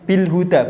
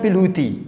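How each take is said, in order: First: The word ends with an 'a' vowel. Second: The word ends with an 'i' vowel. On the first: The speaker calls it right. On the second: The speaker calls it wrong. "bukan bil hudi"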